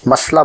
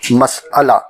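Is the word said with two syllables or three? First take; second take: two; three. First: It has two syllables, run together as 'mas-la'. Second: It has three syllables with a catch before 'la'. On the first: The speaker calls it wrong. "जिसे आमतौर से मसला बोलते हैं, जो गलत है" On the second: The speaker calls it right. "मसअला ही दुरुस्त है"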